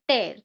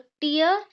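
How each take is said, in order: First: The vowel sounds like the word 'air'. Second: The vowel sounds like the word 'ear'. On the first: It means to pull something apart. "ये टेयर है मतलब कि जब हम कुछ चीजें फाड़ते हैं" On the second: It means drops that fall when crying. "टीयर मतलब कि क्राइंग"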